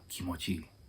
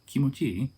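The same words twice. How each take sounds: First: The pitch stays flat at the end. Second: The pitch rises at the end. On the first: It tells the person it feels good. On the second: It asks whether it feels good.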